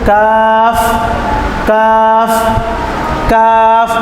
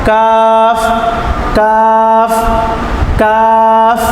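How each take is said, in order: Both takes have the same delivery.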